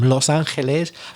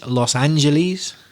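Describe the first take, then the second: First: It is said with a Spanish pronunciation. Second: It is said with an English pronunciation.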